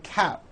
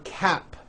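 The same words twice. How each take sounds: First: The final P sound is dropped. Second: The final P sound is clearly released. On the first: The speaker calls it wrong. "you may be saying" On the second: The speaker calls it right. "For cap"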